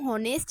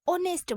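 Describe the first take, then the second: First: The word begins with an audible h sound. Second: The word begins directly with a vowel sound. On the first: The speaker calls it wrong. "इसको हम होनेस्ट नहीं बोलते हैं" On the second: The speaker calls it right. "H जो है वो silent रहता है और इसको हम ऑनेस्ट बोलते हैं"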